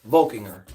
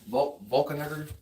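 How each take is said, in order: First: Volkinger in three clean syllables, VOL-king-er; name finally landed. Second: False start on Vul-, then a garbled Volkner; fumbled name attempt. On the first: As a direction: land Volkinger confidently, loud on the first syllable. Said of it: "There we go". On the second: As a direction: try Volkner slowly, restarting after the first syllable. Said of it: "I'm terrible at pronouncing names". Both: Real, not acted.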